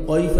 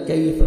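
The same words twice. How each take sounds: First: "قیف" with a thick back-of-throat q; wrong heavy qaaf. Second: "کیف" with a thin front k; light kaaf. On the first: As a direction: mistaken demo, darken the first sound into "قیف". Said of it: "قیف نہیں پڑھنا". ("قیف" موٹے قاف سے، غلط مثال) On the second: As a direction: start "کیف" lightly, k not q. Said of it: "کاف کا light سے ساؤنڈ آئے گا". ("کیف" کا کاف باریک) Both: Shown as a demonstration.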